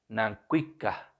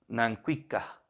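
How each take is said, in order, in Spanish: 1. La palabra termina en saltillo. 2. La palabra termina en saltillo.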